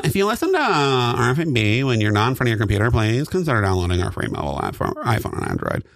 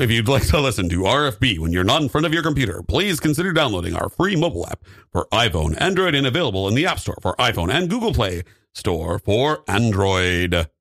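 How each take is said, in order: First: Ad read. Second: Brisk radio ad read. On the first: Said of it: "with less breathing in between". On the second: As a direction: read it like a station promo. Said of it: "that was great, but". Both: Pretend.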